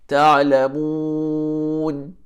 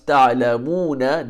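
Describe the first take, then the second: First: The word ends on n, with a lengthened mu. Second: The word ends with a short vowel after n. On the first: The reader stops on this word. "if you choose to stop there, it becomes ta'lamun" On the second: The reader continues without stopping. "If you continue, it becomes ta'lamuna"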